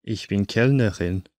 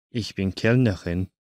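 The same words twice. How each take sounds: The two takes are said the same way.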